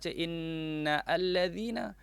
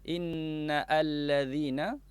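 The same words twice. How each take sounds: No difference in how they are said.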